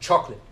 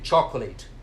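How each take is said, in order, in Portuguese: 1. A palavra é dita encurtada, com o final cortado. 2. A palavra é dita por inteiro, como está escrita. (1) "a pronúncia real é chocolate. Então eles cortam um finzinho" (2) "da forma como a gente lê"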